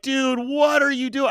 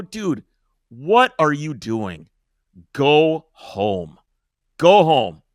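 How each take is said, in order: First: Slow, raised voice in disbelief; incredulous high yell. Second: Louder and louder: go home; firm loud command. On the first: Man scolding the attacker in front of his child, incredulous yell. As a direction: call out to him, stunned. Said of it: "I'm like". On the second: Man ordering the attacker home, loud firm command. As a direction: order him off, harder each time. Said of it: "I go". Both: Retold or imitated.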